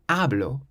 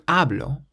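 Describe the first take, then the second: The two takes are said the same way.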